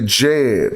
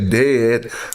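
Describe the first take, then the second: First: It begins with a J sound. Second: It begins with a D sound. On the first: The speaker calls it right. "we say Jed" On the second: The speaker calls it wrong. "We don't say dead"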